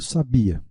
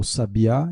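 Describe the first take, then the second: First: Sabia stressed on the bi; stress on middle syllable. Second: Sabiá stressed on the final á; stress on last syllable. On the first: Teacher contrasting two words, sabia with stress on BI. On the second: Teacher contrasting two words, sabiá with final-syllable stress. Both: Shown as a demonstration. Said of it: "o acento ele pode mudar o significado".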